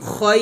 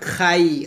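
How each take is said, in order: First: The vowel sounds like 'oy'. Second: The vowel sounds like 'eye'. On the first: The speaker calls it right. "খয় খয় হবে" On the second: The speaker calls it wrong. "Not খাই, খাই বলা যাবে না"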